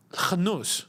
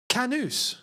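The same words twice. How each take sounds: First: "Khanus" opened with a throaty KH; emphasized native pronunciation. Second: "Kanus" with a plain hard English K, pitched high; anglicised mispronunciation. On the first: Streamer teaching how to say these names, emphasized guttural "Khanus". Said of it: "You gotta emphasize". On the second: Streamer showing how English butcher African names, anglicised "Kanus" with hard K. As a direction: butcher "Kanus" with a simple K, higher voice. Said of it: "the English butcher these names". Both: Shown as a demonstration.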